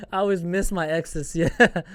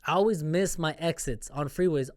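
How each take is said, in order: First: Laughing at his own slip on exes; amused at the slip, saying exes. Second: Said in the usual way. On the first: Real, not acted. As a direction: giggle through the word exes.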